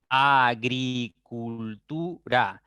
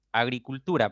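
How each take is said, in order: First: "Agricultura" slowly as a - gri - cul - tu - ra; syllable by syllable. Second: Said in the usual way. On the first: Shown as a demonstration. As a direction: spell out "Agricultura" in five drawn-out beats, a, gri, cul, tu, ra. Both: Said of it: "Tengo cinco sílabas".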